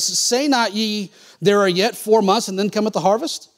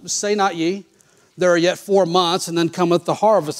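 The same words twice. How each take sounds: First: It is said with question intonation. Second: It is said with statement intonation. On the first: It asks the listeners something. The speaker calls it right. "Jesus is asking a question" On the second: It is a plain claim. The speaker calls it wrong. "They read it as a statement"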